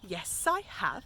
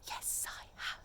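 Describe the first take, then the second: First: It is said in a normal speaking voice. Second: It is said in a quiet whisper. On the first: "in your talking voice" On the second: "You'd have to reply in a whisper"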